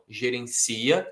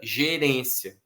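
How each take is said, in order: First: The stress is on the third syllable. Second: The stress is on the second syllable. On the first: It is a verb form meaning manages. "A força em uma está no si" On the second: It is a noun meaning management. "na outra está no ré"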